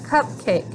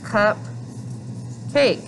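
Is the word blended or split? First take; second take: blended; split. First: The word is blended into one whole. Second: The word is split into two chunks. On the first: The parts are blended into the whole word. "What's the whole word together?" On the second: The word is split into its parts. "Here's cup, cake"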